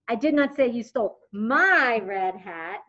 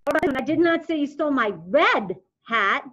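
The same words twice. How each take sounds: First: The word my carries the strongest stress. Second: The word red carries the strongest stress. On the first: Maybe the stolen hat belonged to someone else. "You stole somebody else's red hat" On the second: Maybe the stolen hat was a different color.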